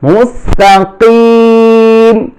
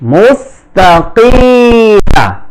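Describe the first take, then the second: First: The word stops on 'm' after a long 'i'. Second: The word ends with a short 'a' after 'm'. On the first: The speaker calls it right. "এখানে ওয়াকফ করলে জজম হবে, তিন আলিফ টান হবে।" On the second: The speaker calls it wrong. "এখানে অনেক উচ্চারণ করতে কিমা বলে, এটা ভুল উচ্চারণ।"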